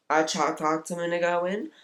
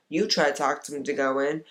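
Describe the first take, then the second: First: I picked out, voice rising at the end; stress on I. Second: You picked out at the start; stress on You. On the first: Woman recounting who tried talking him out of it, stress on I. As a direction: lean on I, lift the ending. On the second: Woman turning the account to her listener, stress on You. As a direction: hit You, then let the rest run on. Lists who tried persuading him. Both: Acted.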